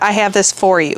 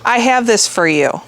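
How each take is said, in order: First: The word 'for' is said like 'for'. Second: The word 'for' is said like 'fur'. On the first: "instead of" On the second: "I say for as fur. Like"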